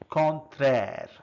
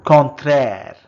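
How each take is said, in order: First: Said in the usual way. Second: First take, projected clearly for the class; loud model word. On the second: Shown as a demonstration. Teacher modelling a French word for learners, loud and clear. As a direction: call out the French word loudly. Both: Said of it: "Contrary becomes".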